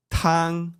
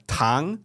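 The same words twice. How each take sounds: First: TANG held high and level; tang on one even, raised pitch; flat tone. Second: TANG with a rising tone, going up like a question; tang said with the pitch sliding upward; second tone. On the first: Showing the word for soup, TANG high and flat. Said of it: "it's, like, it's a flat tone". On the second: Showing a listener the Mandarin word for sugar, rising TANG. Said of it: "second tone, like, it goes up". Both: Shown as a demonstration.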